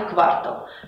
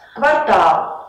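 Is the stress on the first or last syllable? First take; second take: first; last. First: The stress is on the first syllable. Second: The stress is on the last syllable. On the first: The speaker calls it wrong. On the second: The speaker calls it right.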